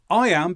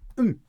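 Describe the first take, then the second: First: Both words are said fully and separately. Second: The words are squeezed into one short syllable. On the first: "In the written form" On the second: "when we're speaking quickly, I am becomes"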